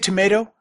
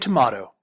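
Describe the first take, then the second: First: The word is said in the ordinary, common way. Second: The word is said in an affected-sounding way. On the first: This is the widely accepted pronunciation. The speaker calls it right. "It's tomato. Everyone agrees that it's tomato" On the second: This pronunciation comes across as pretentious. The speaker calls it wrong. "It comes off as weird and affected"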